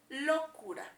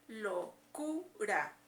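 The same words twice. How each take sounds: First: The stress is on the first syllable. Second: The stress is on the middle syllable. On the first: The speaker calls it wrong. "Si creemos que está en la O" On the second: The speaker calls it right. "se escucha en la sílaba del medio"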